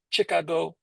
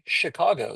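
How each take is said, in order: First: It is said in a Vietnamese accent. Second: It is said in a plain American accent. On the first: "They say Chicago" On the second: "Vietnamese people can't say Chicago"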